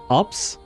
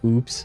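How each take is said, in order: First: It is said as one word rhyming with 'cups'. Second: It is said as one word rhyming with 'hoops'. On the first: "I would have said ups, maybe, because it's an actual word" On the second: "if you pronounce it as, uh... oops"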